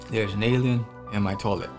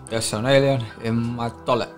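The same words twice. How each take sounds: First: It is said in his normal voice. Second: It is said in a put-on accent.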